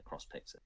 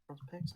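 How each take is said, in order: First: Said in the usual way. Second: "Picks?" higher and rising, softly; doubtful question. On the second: Real, not acted. Game master second-guessing the pub's name, doubtful question. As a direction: query "Cross Picks?" to yourself with a rising end.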